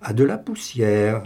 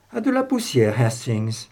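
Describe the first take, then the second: First: Musing to himself, mysterious; enigmatic. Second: A flash of realisation breaking through; struck by a thought. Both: A narrator's reading. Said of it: "répéta-t-il, énigmatique".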